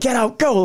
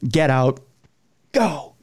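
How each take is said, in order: First: It is said as an energetic starting shout. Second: It is said as a low, ominous warning. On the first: It signals the start of a race. The speaker calls it wrong. "like run a race" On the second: The voice is telling them to leave. The speaker calls it right. "you know, like"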